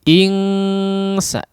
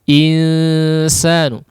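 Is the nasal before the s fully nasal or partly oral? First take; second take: fully nasal; partly oral. First: The nasal is a full ng through the nose. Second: The nasal is light, between n and ng. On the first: The speaker calls it wrong. "dia bukan ang ya" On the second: The speaker calls it right. "bunyinya itu antara n dengan ang"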